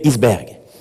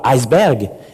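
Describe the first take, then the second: First: The word is pronounced a non-English way. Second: The word is pronounced the English-like way. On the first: The speaker calls it right. "mais iceberg. C'est un mot qui vient de l'islandais et pas de l'anglais" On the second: The speaker calls it wrong. "se prononce non pas iceberg"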